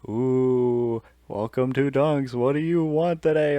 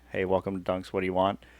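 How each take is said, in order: First: It is said in a spooky Halloween voice. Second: It is said in a normal voice.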